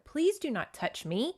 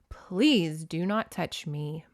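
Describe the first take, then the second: First: It is read in a plain, neutral way. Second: It is read in a scary, ominous way.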